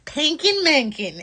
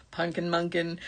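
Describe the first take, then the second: First: "Pankin Mankin" sung out higher and slow, mom style; mom inflection. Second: Said in the usual way. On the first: Shown as a demonstration. Host demonstrating her daughter's pet name in a doting mom lilt. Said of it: "you have to say it like that". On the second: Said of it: "That's not cool".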